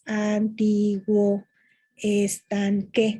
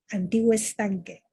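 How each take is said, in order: First: The two words are said separately. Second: The two words run together as one. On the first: It counts as six syllables in prose. "Si fuera prosa, serían seis sílabas" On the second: It counts as five syllables in poetry. "se pronuncia de una manera ligada, fluida"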